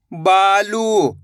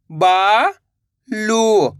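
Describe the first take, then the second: First: बालू joined, long vowels; blended word. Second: बा, long pause, लू; बालू split slowly, rising then falling; syllable by syllable. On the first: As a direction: say बालू as one drawn-out word. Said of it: "तो मिलके बन जाएगा". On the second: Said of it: "एक अक्षर का उच्चारण करना है". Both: Shown as a demonstration.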